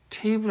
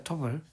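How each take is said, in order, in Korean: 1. 끝에 완전한 'ay' 모음 소리가 있어요. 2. 끝에 짧고 약화된 'uh' 모음이 있어요. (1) "테이블 아니고" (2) "터블이야"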